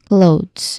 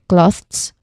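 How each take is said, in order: First: The th sound is voiced, with vibration. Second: The th sound is voiceless, without vibration. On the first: The speaker calls it right. "it should have a voice T H sound and a Z sound" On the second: The speaker calls it wrong. "they still use the voiceless T H sound"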